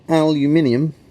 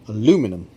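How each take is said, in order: First: It is said the non-American way, with the extra syllable. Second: It is said the American way, without the extra syllable.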